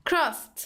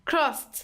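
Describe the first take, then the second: No difference in how they are said.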